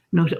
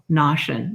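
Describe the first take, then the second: First: Notion with long OH, NOH-shun; correct vowel try. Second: Notion with short AH, like NAH-shun; wrong vowel try. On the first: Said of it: "Oh, yeah, notion". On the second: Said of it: "Try 'em both". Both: Shown as a demonstration.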